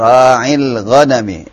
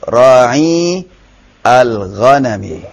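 First: The two words are joined into one flow. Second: The two words are read apart, each one whole.

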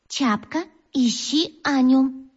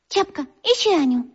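First: The phrase is said slowly, syllable by syllable. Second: The phrase is said smoothly at normal pace.

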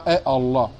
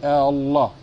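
First: The opening vowel is cut by a glottal catch. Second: The opening vowel is drawn out into one long vowel. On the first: The speaker calls it wrong. "Tu dis pas Allah" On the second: The speaker calls it right. "tu dis Allah"

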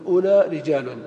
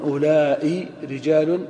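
First: The demonstrative is short, ending without a hamza. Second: The demonstrative is lengthened, ending with a hamza. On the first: "التميميون يقصرون لا يمدون" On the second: "الحجازيون يمدون"

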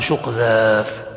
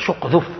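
First: The vowel in the second word is drawn out. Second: The vowel in the second word is short. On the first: The boat is bigger. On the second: The boat is small.

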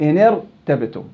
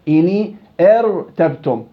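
First: The r follows directly without a glottal stop. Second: A glottal stop is pronounced before the r. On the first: The speaker calls it right. "أنت قلت إني ارتبتم" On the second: The speaker calls it wrong. "ما قلت أنت إني ارتبتم"

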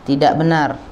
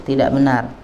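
The two takes are said the same way.

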